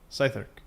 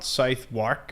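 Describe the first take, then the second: First: The second part sounds like 'irk'. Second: The second part sounds like 'wark'. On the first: The speaker calls it right. "it's South Irk?" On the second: The speaker calls it wrong. "it's not Southwark"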